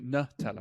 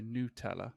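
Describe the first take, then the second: First: The first syllable sounds like 'nut'. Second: The first syllable sounds like 'noo'. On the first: The speaker calls it wrong. "I don't say Nutella" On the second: The speaker calls it right. "that is the correct pronunciation"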